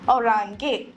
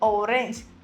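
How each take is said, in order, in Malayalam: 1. ഇത് ജർമൻ ഉച്ചാരണത്തിലാണ് പറയുന്നത്. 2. ഇത് ഇംഗ്ലീഷ് ഉച്ചാരണത്തിലാണ് പറയുന്നത്.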